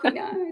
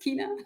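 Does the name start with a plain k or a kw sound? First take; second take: kw; plain k. First: The name starts with a kw sound. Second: The name starts with a plain k sound. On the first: The speaker calls it wrong. "it's not Queena" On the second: The speaker calls it right. "it's Kina"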